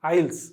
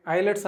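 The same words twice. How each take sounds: First: ఐల్స్ as one smooth word, eyels, with no t; correct pronunciation. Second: ఐలెట్స్ said as eye-lets, with a clear t before the final s; wrong pronunciation. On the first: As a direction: say ఐల్స్ cleanly as eyels, dropping the t. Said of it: "ఐల్స్ అని పలకాలి". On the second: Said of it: "ఐలెట్స్ కాదు అది". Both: Shown as a demonstration.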